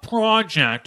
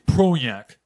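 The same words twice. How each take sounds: First: The word is said in a plain voice. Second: The word is said in a nasal voice. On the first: The speaker calls it wrong. "It's not project" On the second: The speaker calls it right. "pinched the nose there and made the name"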